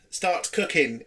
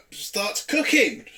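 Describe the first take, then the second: First: Said in the usual way. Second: "starts cooking" drawn out slowly; "starts cooking" stretched out slowly in disbelief. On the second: Shown as a demonstration. Repeats phrase for disbelief.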